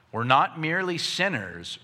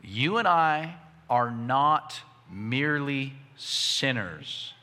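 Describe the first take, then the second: First: Said in the usual way. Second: Measured and spaced out, word by word; slow, deliberate emphasis. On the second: Real, not acted. Preacher tells congregation to hear this clearly, slow and deliberate. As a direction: say it slowly so every word lands. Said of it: "hear this clearly".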